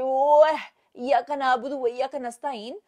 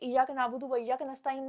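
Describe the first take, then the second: First: The first word starts directly with 'ya'. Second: The first word starts with an 'ee' sound.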